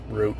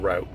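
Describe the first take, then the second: First: The word is pronounced the Canadian way. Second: The word is pronounced the American way.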